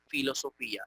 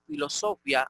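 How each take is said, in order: First: Filosofía as filo-so-FÍ-a; correct tilde stress. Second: Filosofía as filo-SO-fya; wrong stress. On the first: Teacher correcting the reading to filo-so-FÍ-a. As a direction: stress the Í in filosofía, ia in two syllables. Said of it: "sino filosofía". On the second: Teacher showing how not to read it, filo-SO-fya. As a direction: stress SO and run ia together in filosofía. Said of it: "no podemos leer filosofía". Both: Shown as a demonstration.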